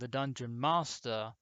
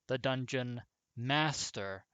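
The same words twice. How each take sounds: First: Master is said in a non-American accent. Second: Master is said in an American accent. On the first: "which is how my voice naturally sounds" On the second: "which is supposed to be the American way of pronouncing master"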